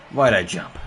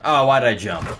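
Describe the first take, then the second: First: "Why'd I jump?" shouted in real frustration; frustrated shout. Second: Said in the usual way. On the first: Real, not acted. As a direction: yell it at yourself over the mistake.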